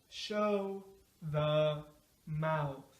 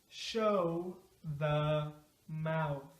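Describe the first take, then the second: No difference in how they are said.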